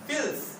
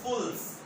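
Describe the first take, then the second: First: The word is said with an i vowel. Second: The word is said with a u vowel. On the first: This is the everyday colloquial form. "जो आपने कहा ना फिल फिल्स" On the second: This is the classical form. "फुसहा में यही लफ्ज बोला जाता है तो कहा जाता है फुल्स"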